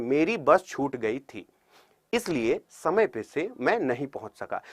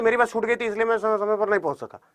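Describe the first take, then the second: First: Slow, soft reading with a pause at the comma; slow phrased reading. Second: Rushed reading. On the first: Teacher showing the right measured way to read a sentence. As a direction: read it unhurried, pausing at punctuation. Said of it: "हर एक चीज का मतलब होता है". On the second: Teacher imitating a student reading too fast. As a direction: read it quickly without pauses. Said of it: "आप कुछ लोग इसे पढ़ेंगे तो". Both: Shown as a demonstration.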